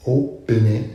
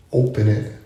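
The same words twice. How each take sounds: The two takes are said the same way.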